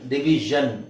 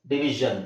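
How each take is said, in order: First: The ending is said with a voiced 'zh' sound. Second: The ending is said with a voiced 'zh' sound.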